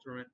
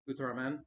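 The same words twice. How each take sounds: First: It is said in a plain English accent. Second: It is said in a Japanese-style accent.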